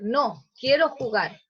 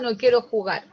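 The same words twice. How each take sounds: First: There is a pause right after no. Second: It runs on without a pause after no. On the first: The person does want to play. "la diferencia es en la coma" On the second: The person does not want to play. "Una quiere decir que no quiere jugar"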